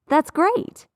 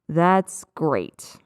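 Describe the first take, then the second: First: The pitch rises through the phrase. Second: The pitch falls through the phrase. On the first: The speaker is genuinely happy about the news. "with an upward or rising inflection" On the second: The speaker is being sarcastic and is not actually happy. "with a downward or falling inflection"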